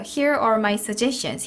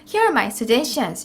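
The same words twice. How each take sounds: First: 'Here' and 'are' are kept separate. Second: 'Here' and 'are' are run together. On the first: The speaker calls it right. "here 따로 are 따로예요" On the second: The speaker calls it wrong. "이렇게 하시는 분들 굉장히 많습니다"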